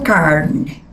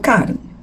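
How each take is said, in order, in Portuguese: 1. O R é puxado, bem prolongado. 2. O R é simples, não prolongado. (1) "Eu não falo carne" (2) "Eu falo carne"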